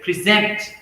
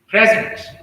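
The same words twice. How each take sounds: First: The stress is on the second syllable. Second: The stress is on the first syllable. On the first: It is used as a verb. "verb. So you'll see that stress shift to second syllable" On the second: It is used as a noun or adjective. "noun or adjective"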